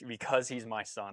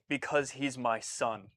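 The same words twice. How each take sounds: First: Softer heartfelt line; quiet fatherly conviction; understated tender quote. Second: Softer, slow heartfelt line; understated tender quote. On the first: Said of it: "just that line alone". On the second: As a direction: say it like a father's quiet confession. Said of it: "His line was". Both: Retold or imitated.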